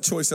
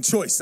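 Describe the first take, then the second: First: "choice" with a put-on New Zealand accent. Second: Said in the usual way. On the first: Shown as a demonstration. Clarifying it is not the slang sense, New Zealand accent. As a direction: say "choice" the Kiwi way. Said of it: "as in New Zealand choice". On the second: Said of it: "I mean choice as in choice".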